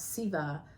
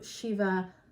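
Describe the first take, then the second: First: The word begins with a soft s sound. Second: The word begins with an sh sound. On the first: It brings the divine energy into oneself. "When you say it with the the soft S, the S sound, that's pretty much a South Indian pronunciation" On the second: It sends the energy out into the world. "The sh can be a North Indian"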